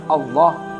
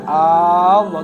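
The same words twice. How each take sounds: First: The opening vowel is short. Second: The opening vowel is drawn out long. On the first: It is a plain statement about God. The speaker calls it right. "Harusnya kan Allah" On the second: It turns the phrase into a question. The speaker calls it wrong. "dipanjangkan Allah, itu nggak boleh"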